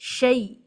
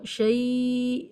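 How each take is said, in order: First: The vowel is said short and quick. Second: The vowel is drawn out long. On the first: The speaker calls it right. "इसको बिल्कुल नहीं खींचना है, जल्दी से पढ़ना है" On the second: The speaker calls it wrong. "With एलंगेशन या विद स्ट्रेच पढ़ देते हैं"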